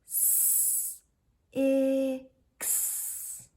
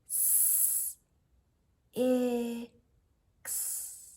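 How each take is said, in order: First: The sounds are drawn out and run together. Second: Each sound is followed by a short pause. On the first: "Now we're gonna stretch it" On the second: "say each sound and then kind of pause for a second"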